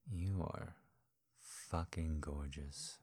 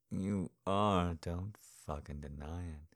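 First: Said in the usual way. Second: "are" pushed out loud; insisting with "are" punched; stress on are. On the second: Acted. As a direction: lean hard on "are". Repeated you are, stressed.

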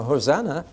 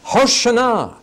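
First: Light, offhand Hosanna like a greeting; breezy everyday Hosanna; casual hello. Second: Hoshana shouted high and loud; urgent shouted Hoshana; demanding cry. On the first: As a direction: toss off Hosanna as a friendly hello. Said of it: "a kind of heavenly hello". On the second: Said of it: "it actually is a demand for freedom". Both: Shown as a demonstration.

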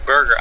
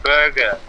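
First: Said in the usual way. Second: "burger" said as "bugah", no R; "burger" with the R dropped, childlike; says w for r. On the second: Shown as a demonstration. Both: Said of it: "I could not say burger".

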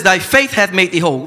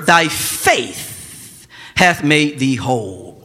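First: Said in the usual way. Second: Drawn out, each word of Thy faith hath made thee whole slowed right down; slow scripture reading. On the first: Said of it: "He says". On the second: Shown as a demonstration. Pastor reading Jesus' words to the church, slow and solemn. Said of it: "He says to her".

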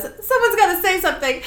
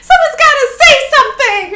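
First: High-pitched but contained alarm; anxious plea at normal volume; uneasy urging. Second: Fast, very high and loud; hammed-up desperate squeal; panicked outburst. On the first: Acted. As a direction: nervously prompt the others to speak up. Sully urging, first milder take. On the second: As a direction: blurt it as a frantic yell. Sully repeats it, panicking.

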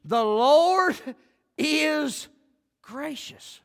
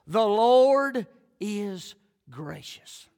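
First: The Lord is gracious with a long pause after each word. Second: The Lord is gracious drawn out very slowly as one phrase; slow emphasis. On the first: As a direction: Lord is gracious as separate words, each set apart. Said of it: "that'll preach without me saying another word". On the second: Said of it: "these first four words". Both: Shown as a demonstration.

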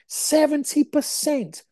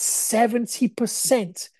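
First: Slow, high-pitched disbelief; incredulous emphasis. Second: Said in the usual way. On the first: Real, not acted. Telling viewers the shocking figure, incredulous. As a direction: stretch out "Seventy percent", pitched right up. Repeats figure he finds insane.

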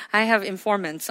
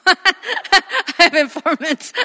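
First: Chuckling over the words; laughing. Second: Slow, drawn-out laughing repeat; laughing slowly. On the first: Pastor jokes to congregation, chuckling. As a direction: laugh through the joke. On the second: Pastor repeats the joke, laughing slower. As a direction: stretch it out through a laugh. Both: Real, not acted.

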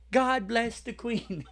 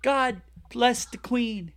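First: Mock British. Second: Slow, hammed-up British accent; mock British accent. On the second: Host hamming a British toast, slow mock British accent. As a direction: intone it slowly like a mock loyal Brit. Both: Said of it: "Do you wanna do a spot of a podcast today?".

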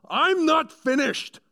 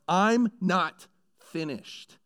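First: Huge high roar, slowed right down; furious yell. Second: "I'm not finished" slow and raised, each word weighted; a weighty "I'm not finished", slow and firm; emphatic declaration. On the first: William Wallace yelling at the laughing English lord. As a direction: bellow it like a warrior at a parley. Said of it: "William Wallace yells". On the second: Angel of the Lord cutting off Satan, slow and raised. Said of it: "it's this moment of". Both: Retold or imitated.

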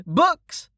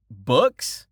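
First: BOOKS called out very high; child hawker. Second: BOOKS as a rising question; interested customer. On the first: Acted. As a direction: sing out BOOKS as a little girl selling wares. Child calls out list of wares. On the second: A narrator's reading. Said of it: "A familiar voice said".

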